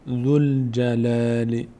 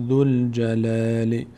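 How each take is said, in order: Both takes have the same delivery.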